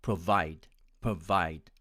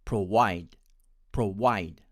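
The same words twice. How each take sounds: First: "provide" with a clear V sound; American pronunciation. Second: "provide" with a W sound, pro-wide; Indian pronunciation. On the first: Teacher demonstrating the American way, "provide" with a crisp V. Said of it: "my American friends would pronounce it as". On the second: Teacher demonstrating the Indian way, "provide" said with W. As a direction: say "provide" with W in place of V. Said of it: "My friends from India tend to pronounce it as". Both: Shown as a demonstration.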